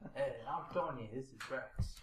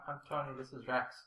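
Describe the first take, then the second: First: It is said in a mafia-movie voice. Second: It is said in a normal voice.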